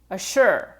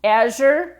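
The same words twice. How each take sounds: First: No buzz in "assure"; voiceless assure. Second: "Azure" with a buzzing zh; voiced azure. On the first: Teacher sets the wrong word beside the right one. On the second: Teacher sets the right word beside the wrong one. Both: Shown as a demonstration. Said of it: "these two words actually sound almost the same".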